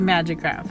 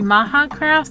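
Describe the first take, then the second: First: The middle consonant is a J sound. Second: The middle consonant is a soft H sound. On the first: "Some people say Magic Craft" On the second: "Some people say Maha Craft"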